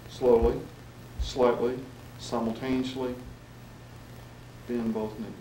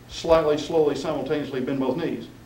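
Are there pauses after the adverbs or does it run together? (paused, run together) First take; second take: paused; run together. First: There are clear pauses after each adverb. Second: The words run together without pauses. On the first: The speaker calls it right. "and also pause is important" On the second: The speaker calls it wrong. "it just runs all together"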